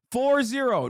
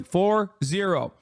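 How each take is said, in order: First: Said in the usual way. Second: "four zero" said slowly, each digit weighted; slow, deliberate spelling out. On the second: Real, not acted.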